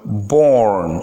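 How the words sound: It is said with an American accent. "but born in American English"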